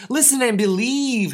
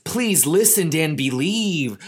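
First: Higher, pleading echo of Listen and believe; echoing gnome, higher. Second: Pleading gnome. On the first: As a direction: Hap repeats the plea pitched up. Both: Acted. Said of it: "Hap echoed".

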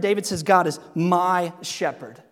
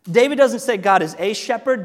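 First: "my" in "my shepherd" pressed as the key word; stress on my. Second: "a" in "a shepherd" pressed louder; stress on a. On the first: Preacher to the congregation, stressing "my". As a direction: lean on "my" before shepherd. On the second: Preacher to the congregation, stressing "a". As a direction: lean on the word "a" before shepherd. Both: Shown as a demonstration. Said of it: "contrasts a, the, my".

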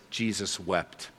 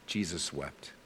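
First: Said in the usual way. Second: Much softer and lower, letting it sink in; softly repeated. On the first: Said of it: "it says". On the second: Shown as a demonstration. Preacher repeating the verse to the congregation, much softer. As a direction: drop the voice to let the verse land. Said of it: "repeats the verse".

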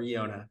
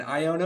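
First: "Iona" starting with an EE sound; first vowel of "Iona" like "ee"; ee pronunciation. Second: "Iona" starting with an EYE sound; first vowel of "Iona" like "eye"; long-I pronunciation. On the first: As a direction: say "Iona" as ee-OH-nuh. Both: Shown as a demonstration. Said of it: "How do you say it?".

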